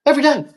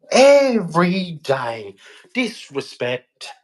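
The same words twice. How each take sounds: First: Emphatic outburst. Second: Every day dragged out slowly; slow heavy repeat. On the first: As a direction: throw Every day out high and hard. Repeats Every day, second take slow. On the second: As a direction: let Every day sink, slowly and heavily. Repeats Every day, this take louder. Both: Real, not acted.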